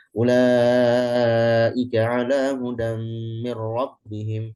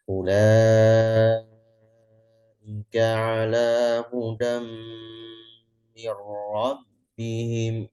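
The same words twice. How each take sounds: First: Chanted louder with a higher, held voice; hadr recitation. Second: Very slow, drawn-out Quran recitation; slow tahqiq recitation. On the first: Teacher demonstrating the hadr recitation style. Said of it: "Ulaika itu hadar". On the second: Teacher reciting slowly as a tahqiq example. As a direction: recite each word slowly. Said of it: "Nah, itu kan tahqiq". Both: Shown as a demonstration.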